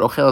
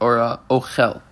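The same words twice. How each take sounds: First: The stress is on the last syllable. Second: The stress is on the first syllable. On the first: It is a verb meaning eating. "The emphasis is on the last word of the chaf" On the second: It is a noun meaning food. "the emphasis is on the first letter, the aleph"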